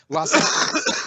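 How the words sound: The name is said with an English pronunciation. It is said for an English-speaking crowd. "same with you guys"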